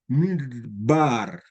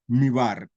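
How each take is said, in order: First: A short d sound is heard mid-word. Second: The middle d sound is left out. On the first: The speaker calls it right. "hace el sonido de esta segunda letra" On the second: The speaker calls it wrong. "no es mi bar"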